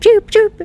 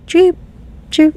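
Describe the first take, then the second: First: The two chirps come quickly, one right after another. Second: The two chirps are slow and spaced apart.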